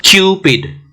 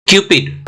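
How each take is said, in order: First: क्यूपिड with a drawn-out 'kyoo' before 'pid'; long stretched vowel. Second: Said in the usual way. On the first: Shown as a demonstration. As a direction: stretch the यू, then land on the p in क्यूपिड. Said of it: "वो लंबा खींच रहा है". (क्यूपिड में लंबा खिंचा यू) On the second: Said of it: "क्यू का जो यू है".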